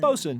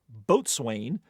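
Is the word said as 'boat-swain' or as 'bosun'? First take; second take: bosun; boat-swain. First: It is said in contracted form, 'bosun'. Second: It is said as spelled, 'boat-swain'. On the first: The speaker calls it right. "bosun is fine" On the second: The speaker calls it wrong. "landlubbers mispronounce as boatswain"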